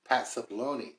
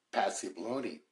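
First: "Pat Cipollone" said cleanly, with the T in Pat; corrected name. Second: "Pat Cipollone" slurred together as "Passy-blone-ee"; fumbled name. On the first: Host correcting his slip on the witness's name, "Pat Cipollone" said distinctly. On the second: Host stumbling on the witness's name, "Pat Cipollone" fumbled as "Passy-blone-ee". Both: Real, not acted.

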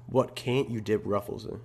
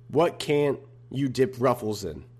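First: Quieter musing repeat with stress on "can't". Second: Slow, careful read with WHAT stressed; reading the question. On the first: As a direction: turn it over to yourself, pressing "can't". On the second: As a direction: read it out slowly, leaning on "What". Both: Shown as a demonstration. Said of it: "Again from [name]".

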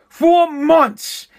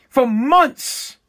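First: FOR hit hard, the line higher and falling; stress on FOR. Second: Said in the usual way. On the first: Shown as a demonstration. Vlogger repeating for months to hammer it home, stress on For. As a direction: lean on the word For, then let months drop.

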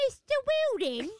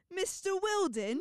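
First: Put-on British accent. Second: Slow, higher mock British accent; imitating her British accent. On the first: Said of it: "That's not how I usually do it". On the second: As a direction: draw out Wilden British style. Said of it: "because of how you say it".

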